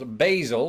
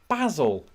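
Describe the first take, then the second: First: It is said the American way, rhyming with hazel. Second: It is said the British way, as in Fawlty. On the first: "here in America, it's very much pronounced basil, like the word hazel" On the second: "where I'm from... We pronounce it Basil, as in Basil Fawlty"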